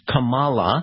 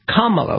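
First: The name does not begin like 'comma'. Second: The name begins like 'comma', then 'la'. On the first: The speaker calls it wrong. "which is not Kamala, which is what the Justice Supreme Court said" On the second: The speaker calls it right. "like comma, and then you put la"

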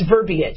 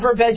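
First: The word is said with the middle 'ee' sound. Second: The word is said without the middle 'ee' sound. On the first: The speaker calls it right. "there's an I in there" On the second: The speaker calls it wrong. "It's not verbiage"

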